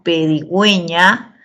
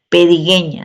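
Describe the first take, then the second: First: The u after the g is pronounced. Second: The u after the g is silent. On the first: The speaker calls it right. "esa U se pronuncia" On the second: The speaker calls it wrong. "si no sería pedigueña"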